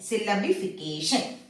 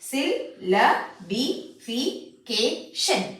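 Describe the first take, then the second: First: The syllables are joined in one smooth word. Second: Each syllable is said separately with breaks.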